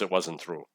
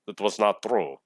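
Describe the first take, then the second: First: It is said in a plain, everyday accent. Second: It is said in a put-on Russian accent.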